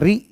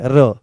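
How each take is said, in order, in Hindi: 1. र के बाद लंबा 'ee' स्वर आता है। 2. र के बाद छोटा 'u' स्वर आता है। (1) "कहीं कहीं पर तो री की तरह से होता है" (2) "कोई कोई इसका उच्चारण रो करता है"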